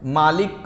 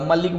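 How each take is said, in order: First: The first vowel is drawn out long. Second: The first vowel is kept short. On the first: The speaker calls it wrong. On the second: The speaker calls it right.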